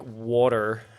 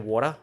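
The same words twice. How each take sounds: First: It is said without an Australian accent. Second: It is said in an Australian accent.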